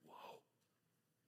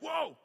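First: The word is whispered softly. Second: The word is shouted loudly. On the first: "Or maybe you whisper it" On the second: "Maybe you shout it"

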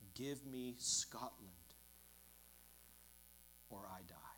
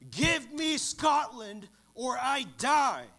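First: It is said in a soft, pleading voice. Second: It is thundered out as a passionate cry.

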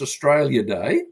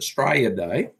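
First: Australia is said in full, standard pronunciation. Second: Australia is said clipped, in a broad Australian accent.

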